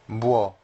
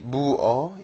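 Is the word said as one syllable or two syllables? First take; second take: one syllable; two syllables. First: It is said as one merged syllable. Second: It is said as two separate syllables. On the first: The speaker calls it right. "You have to pronounce them in in as a one syllable" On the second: The speaker calls it wrong. "it's not exactly bu o in Korean"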